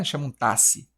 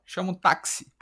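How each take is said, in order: First: "táxi" pronounced "tássi"; x as S only. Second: "táxi" pronounced "tácsi". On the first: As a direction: drop the K sound from "táxi". Contraste sem o som de K. ("táxi" dito como "tássi") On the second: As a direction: sound both K and S in "táxi". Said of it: "que tem som de K S". ("táxi" com som de cs) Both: Shown as a demonstration.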